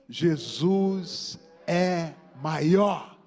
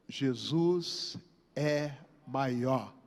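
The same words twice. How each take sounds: First: It is said loudly, like cheering at football. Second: It is said in a plain, calm way.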